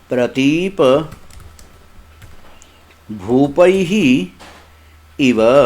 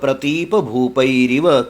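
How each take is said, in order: First: The last words are separate, ending in a breathy h. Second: The last words run together with an r sound. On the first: "ये पदच्छेद हो रहा है।" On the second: "वहां जो र बना है इन विसर्गों का बना है।"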